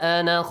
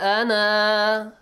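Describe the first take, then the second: First: The final vowel is short, running into the next word. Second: The final vowel is held long before a stop. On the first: The reader continues straight into the next word. "But if you join, you ignore the alif" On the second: The reader pauses after this word. "if you stop at the word ana, you read it"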